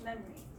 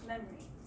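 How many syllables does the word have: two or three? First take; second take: two; two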